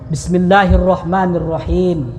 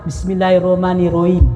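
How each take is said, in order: First: Long and short vowels are clearly distinguished. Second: Long and short vowels are blurred together. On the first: The speaker calls it right. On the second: The speaker calls it wrong.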